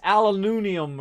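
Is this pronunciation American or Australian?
Australian. It is said with an Australian pronunciation. "they say it a different way"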